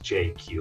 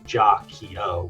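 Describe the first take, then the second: First: It is said as two separate letter names. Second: It is said as one multi-syllable word. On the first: This is how the owner has always said it. "just J Q, like the two letters" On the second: This is the name's original intended form. "It's supposed to be Jacchio"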